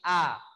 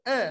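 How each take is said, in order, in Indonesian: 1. Vokalnya bunyi a terbuka. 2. Vokalnya bunyi e tengah depan. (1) "tapi A. Dibuka mulutnya" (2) "Huruf hamzah tidak dibaca E. E enggak"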